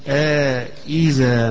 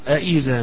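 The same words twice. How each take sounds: First: A long vowel separates the two glottal stops. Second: The two glottal stops follow with no long vowel. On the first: "هشام حيقرأ بالمد فيها" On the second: "ابن زكوان يقرأ بالتحقيق"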